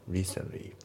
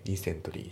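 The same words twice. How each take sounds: First: Recently said as "risenli", no T sound; recently without the T; T dropped. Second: Recently said as "risentori", full T; recently with a clear T. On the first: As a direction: drop the T in recently. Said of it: "recentlyのTが抜けますね". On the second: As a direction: spell out every sound of recently. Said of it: "recentlyじゃなくて". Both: Shown as a demonstration.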